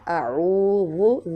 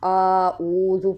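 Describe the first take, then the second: First: The first vowel is kept short. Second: The first vowel is drawn out long. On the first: The speaker calls it right. "दाल नरमी से दोनों दांतों के दरमियान ज़ुबान का किनारा लगेगा" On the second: The speaker calls it wrong. "अलिफ के ऊपर खड़ा ज़बर लगा देते हैं, तो ऐसा नहीं करना"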